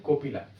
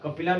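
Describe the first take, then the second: First: The first vowel sounds like 'o'. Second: The first vowel sounds like 'a'. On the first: The speaker calls it right. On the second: The speaker calls it wrong. "कपिला नहीं"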